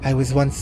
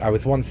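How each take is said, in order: First: It is said in a put-on character voice. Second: It is said in the speaker's normal voice.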